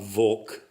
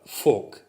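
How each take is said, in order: First: The word starts with a V sound. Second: The word starts with an F sound. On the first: The speaker calls it wrong. "Not Volk" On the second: The speaker calls it right. "the V in that word is pronounced as an F"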